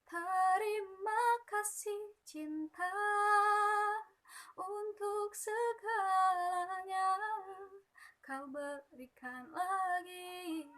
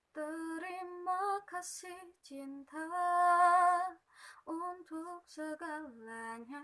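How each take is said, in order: First: Higher, louder, slow sung line with wide-open vowels; open clear vowels. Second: Slow, higher sung line with mumbled vowels; unclear articulation. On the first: Teacher demonstrating clear wide-mouthed articulation. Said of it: "harusnya lebih mangap". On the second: Teacher demonstrating mumbled, unclear vowels. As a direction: sing it without opening the vowels. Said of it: "artikulasinya tuh nggak jelas". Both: Shown as a demonstration.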